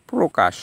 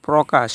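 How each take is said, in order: First: প্রকাশ as "pro-kash", closed o; o-ending first syllable. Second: প্রকাশ as "praw-kash", open first vowel; questioning, mistaken "praw" in প্রকাশ; wrong open vowel. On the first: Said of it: "সঠিক উচ্চারণ হলো প্রকাশ". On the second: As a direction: say প্রকাশ with an "aw" after pr. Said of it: "আমরা কি বলি". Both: Shown as a demonstration.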